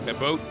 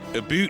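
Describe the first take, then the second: First: The vowel sounds like the one in out. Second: The vowel sounds like the one in boot. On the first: This is how the speaker does not say it. "not about" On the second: This is how the speaker says it. "I pronounce it aboot"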